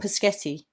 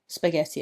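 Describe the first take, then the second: First: The word begins with a plain 'p' sound. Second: The word begins with an 'sp' cluster.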